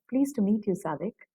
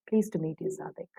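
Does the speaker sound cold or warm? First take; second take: warm; cold. First: The tone is warm and interested. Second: The tone is cold and uninterested. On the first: The speaker is glad to meet the person. "Or else you'll say" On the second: The speaker is not glad to meet the person. "you're showing that you're actually not pleased to meet that person at all"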